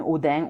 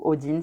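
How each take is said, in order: First: \"Odin\" said the French way, nasal end, o-DAIN. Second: \"Odin\" said the English way, o-DEEN with a clear n. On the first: Reader names the rune Odin the French way, o-DAIN. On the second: Reader gives the English Odin, o-DEEN with a clear n. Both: Shown as a demonstration. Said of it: "on dit Odin à l'anglaise".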